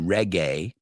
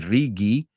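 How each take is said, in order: First: It is pronounced the way English speakers say it. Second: It is pronounced the way Spanish speakers say it. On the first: This is how English speakers say it. "We don't, we say reggae" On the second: This is how the audience says it. "I know you guys say rigi"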